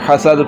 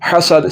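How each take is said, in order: First: The s sound is made without a whistle. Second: The s sound is made with a whistle. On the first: The speaker calls it wrong. "बगैर सीटी के" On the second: The speaker calls it right. "सीटी के साथ हसद हसद"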